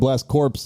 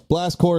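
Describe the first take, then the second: First: The second word is said with a p sound. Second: The second word ends without a p sound. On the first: The speaker calls it wrong. "is how it's spelled, but that's not how it's pronounced" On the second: The speaker calls it right. "Blast Core is the name of the game"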